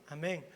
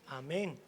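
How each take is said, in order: The two takes are said the same way.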